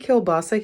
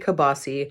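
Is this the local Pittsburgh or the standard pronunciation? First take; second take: standard; local. First: Said in the standard, non-local pronunciation. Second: Said in the local Pittsburgh pronunciation. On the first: This is how it is said elsewhere. "We don't say kielbasa here" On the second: This is how locals say it. "we say kibasi"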